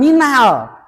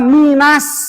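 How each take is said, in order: First: The L sound is clearly pronounced. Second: The L merges into a doubled S sound. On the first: The speaker calls it wrong. "bukan minal" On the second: The speaker calls it right. "Jadi membacanya minas"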